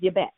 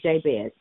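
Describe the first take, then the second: First: The name is said in a Hebrew way. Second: The name is said in an Anglicized way. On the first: The speaker calls it right. "That's the Hebrew pronunciation of the name" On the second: The speaker calls it wrong.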